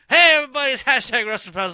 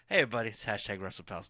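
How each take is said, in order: First: It is said with more energy and hype. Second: It is said in a mellow, low-energy way.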